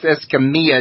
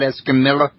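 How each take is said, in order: First: The double L sounds like a Y. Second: The double L sounds like an L. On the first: The speaker calls it right. "now that last name's pronounced" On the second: The speaker calls it wrong.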